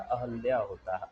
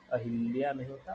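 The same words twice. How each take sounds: First: "अहल्या" with long opening आ and no इ; "अहल्या" as आ-हल्-या, firm; correct form. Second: "अहिल्या" said quickly as the mistake; "अहिल्या" with इ, tossed off fast; wrong form. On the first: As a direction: stress the right "अहल्या". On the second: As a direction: rush "अहिल्या" as the form to avoid. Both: Shown as a demonstration.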